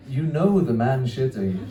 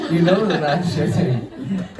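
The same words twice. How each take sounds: First: Said in the usual way. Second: "know the man shitting" louder, higher and drawn out; punchline repeated loud, slow and high-pitched; emphatic repeat. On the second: Real, not acted.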